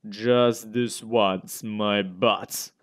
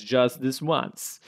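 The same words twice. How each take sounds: First: Slow, lower sarcastic repeat; mocking echo. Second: Said in the usual way. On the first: Visitor echoing the doctor's sudden favour, slow and mocking. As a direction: drag out the quoted words in scorn.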